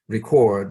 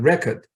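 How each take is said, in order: First: The stress is on the second syllable. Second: The stress is on the first syllable. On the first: It is a verb. "Record, the stress is on the second syllable" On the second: It is a noun. "record is a noun, right? With the stress on the first syllable"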